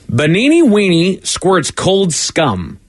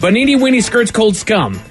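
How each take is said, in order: First: It is read at a normal speed. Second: It is read quickly.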